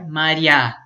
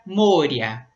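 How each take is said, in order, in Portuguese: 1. A sílaba tônica fica na última sílaba. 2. A sílaba tônica não fica na última sílaba. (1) "a sílaba tônica fica no final" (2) "no genitivo troca o ye por ya e aí fica moria"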